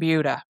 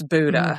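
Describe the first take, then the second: First: The first syllable sounds like 'byoo' in beautiful. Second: The first syllable is a plain 'boo' sound. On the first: The speaker calls it right. "We appreciate you saying Buda" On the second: The speaker calls it wrong. "people say Buda. Mostly it's Buda"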